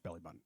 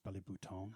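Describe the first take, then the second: First: Button is said with an ordinary English pronunciation. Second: Button is said with a French pronunciation. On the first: It is the normal, serious way to say it. "I'm kidding, of course" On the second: It is a joke, pretending to be fancy. "It's actually pronounced belly bouton in French"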